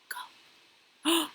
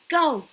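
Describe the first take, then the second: First: The word is spoken quietly. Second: The word is spoken at medium volume. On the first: "He practiced it quietly" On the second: "Then medium"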